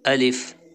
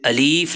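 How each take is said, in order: First: The second vowel is a short i. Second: The second vowel is a long ee. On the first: The speaker calls it right. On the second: The speaker calls it wrong.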